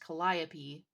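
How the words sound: The name is pronounced the American English way. "in here in the United States, that would be pronounced Calliope"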